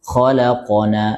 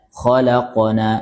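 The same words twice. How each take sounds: No difference in how they are said.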